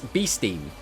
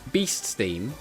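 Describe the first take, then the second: First: The s sound is said once, as one word. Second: The s sound is said twice, as two words. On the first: The speaker calls it right. "It's Beasteam" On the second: The speaker calls it wrong. "it's not Beast Steam"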